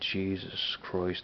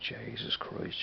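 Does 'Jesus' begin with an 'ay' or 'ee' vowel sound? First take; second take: ee; ay. First: Jesus has an 'ee' vowel, standard pronunciation. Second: Jesus has an 'ay' vowel, like 'Jaysis'. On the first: This is not how people in Dublin say it. "We don't say Jesus Christ over here in Dublin" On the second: This is how people in Dublin say it. "we always say Jesus Christ"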